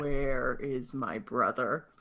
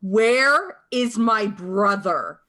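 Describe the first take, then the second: First: Guttural bass. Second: Slow, high, loud screamed demand. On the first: Shown as a demonstration. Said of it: "the guttural bass line". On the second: Acted. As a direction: scream the question slowly, full force. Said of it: "just screams".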